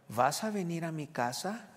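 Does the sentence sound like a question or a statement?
question. It is said with a questioning intonation. The speaker calls it right. "Así se lee con ese tono"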